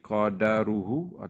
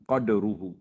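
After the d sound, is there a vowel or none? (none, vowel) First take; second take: vowel; none. First: A short vowel follows the d sound. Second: No vowel follows the d sound. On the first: This is the majority reading. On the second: This is another accepted reading.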